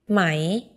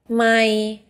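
First: The pitch starts low and rises. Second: The pitch stays level in the middle range. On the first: It means silk. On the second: It means mile.

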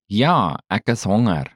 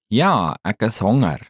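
No difference in how they are said.

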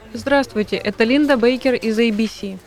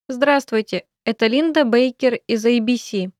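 First: It is said at normal speed. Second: It is said slowly.

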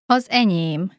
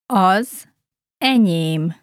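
First: It is said at natural speed. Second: It is said slowly.

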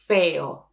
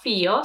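First: The vowel after f is a pure e. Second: The vowel after f is not a pure e. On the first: The speaker calls it right. "we have to pronounce it as E" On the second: The speaker calls it wrong. "it's not feo"

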